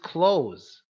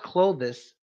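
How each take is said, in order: First: The word is said with one syllable. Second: The word is said with two syllables. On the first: The speaker calls it right. "it's just close, similar to when you close a door" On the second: The speaker calls it wrong. "it's not Clovis"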